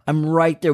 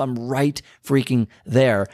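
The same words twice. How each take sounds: First: Said in the usual way. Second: Slow, each word leaned on, freaking punched; stress on freaking. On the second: Shown as a demonstration. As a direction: drag out I'm right freaking there for emphasis.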